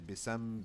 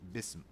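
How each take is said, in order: First: An 'a' vowel is inserted between s and m. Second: The s goes straight into the m. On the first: The speaker calls it wrong. "I don't say bisam" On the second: The speaker calls it right. "So bism"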